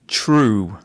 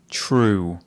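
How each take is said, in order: The two takes are said the same way.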